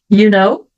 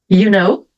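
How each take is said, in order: Both takes have the same delivery.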